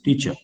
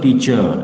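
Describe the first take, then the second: First: The final vowel is said short. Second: The final vowel is said long. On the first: The speaker calls it right. "Short a" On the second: The speaker calls it wrong. "It's not teacher"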